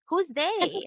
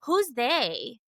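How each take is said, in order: First: Pitched much higher, disbelieving; incredulous repeat. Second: Said in the usual way. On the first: Retold or imitated. Mocking a cousin's family post with a higher incredulous repeat. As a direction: throw it back in disbelief.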